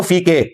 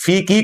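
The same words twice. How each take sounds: First: फी के with an "ay" ending; majhool mispronunciation. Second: फी की with a clear long "ee" ending; correct long-ee vowel. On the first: Retold or imitated. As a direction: say के as "kay" in फी के, imitating the mistake. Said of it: "वो फी के पढ़ रहे हैं". (फी के, मजहूल "ए" के साथ) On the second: Shown as a demonstration. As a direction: say की as "kee" in फी की. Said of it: "जिसमें वो फी के पढ़ रहे हैं". (फी की, लंबी "ई" के साथ)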